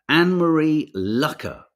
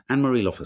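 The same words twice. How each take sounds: First: Lucker said with a short u, slowly and carefully; corrected name. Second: Loffer said with a short o; wrong pronunciation. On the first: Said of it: "I'm gonna drive that into my head". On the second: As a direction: guess at Loffer, unsure. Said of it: "I'm so sorry". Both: Shown as a demonstration.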